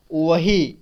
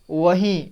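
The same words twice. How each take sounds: First: वही with a plain oral ending; वही, clean oral ई; no nasal. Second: वहीं with the final ईं nasalised; वहीं, nasal final vowel. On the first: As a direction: say वही without any nasal. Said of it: "अनुस्वार नहीं लगता, तो क्या पढ़ते". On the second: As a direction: give वहीं a nasal ending. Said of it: "तो इसे पढ़ेंगे वहीं". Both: Shown as a demonstration.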